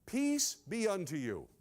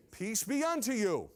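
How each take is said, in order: First: Slow "Peace", a pause, then "be unto you" falling; measured blessing. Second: "Peace be unto you" in one rising-falling sweep; joined-up blessing. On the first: Preacher teaches the old greeting, "Peace" slow and set apart. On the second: Preacher greets with the blessing, "Peace be unto you" unbroken. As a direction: run "Peace be unto you" together, lifted in the middle. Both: Shown as a demonstration. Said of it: "they would say this".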